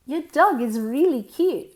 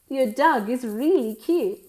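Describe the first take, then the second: No difference in how they are said.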